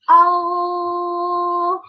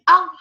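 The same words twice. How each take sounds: First: The sound flows on without being cut off. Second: The sound is stopped short by closing. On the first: The speaker calls it right. "You will feel that I make distance between the two organs" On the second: The speaker calls it wrong. "I close the articulation point"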